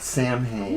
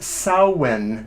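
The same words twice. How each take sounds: First: It is said with a non-Celtic pronunciation. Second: It is said with the Celtic pronunciation. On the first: The speaker calls it wrong. "not Samhain" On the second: The speaker calls it right. "it's actually pronounced Samhain ... the Celtic pronunciation"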